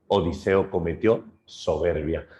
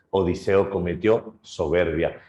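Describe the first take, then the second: No difference in how they are said.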